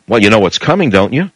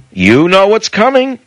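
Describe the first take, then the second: First: Said in the usual way. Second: Higher and slow, leaning on coming; ominous repeat. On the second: Acted. Radio host warning listeners, higher and slow. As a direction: let it hang like a warning.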